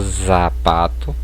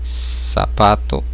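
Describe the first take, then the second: First: The word begins with a z sound. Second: The word begins with an s sound. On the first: The speaker calls it wrong. "e não" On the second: The speaker calls it right. "Ela vai ter um sonzinho de S"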